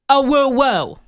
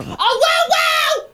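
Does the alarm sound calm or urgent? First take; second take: calm; urgent. First: It is said with little urgency. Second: It is said with more urgency.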